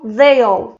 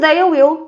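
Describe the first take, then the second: First: The two words merge into one short syllable. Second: Both words are said separately and in full.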